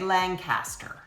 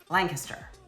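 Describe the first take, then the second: First: Every syllable of the name is clearly pronounced. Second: Some syllables of the name are reduced or dropped. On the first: This is how an outsider reads it off the map. The speaker calls it wrong. "we don't say Lancaster" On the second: This is how the locals say it. The speaker calls it right. "We say Lancaster. ... You don't have to pronounce every syllable"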